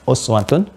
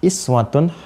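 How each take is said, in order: First: The word begins with a 'u' vowel. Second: The word begins with an 'i' vowel. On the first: This is one traditional reading of the verse. "uswah ini harakatnya dhammah" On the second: This is another traditional reading of the verse. "Pakai kasrah"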